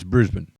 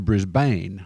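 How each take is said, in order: First: It is said in an Australian accent. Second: It is said in an American accent.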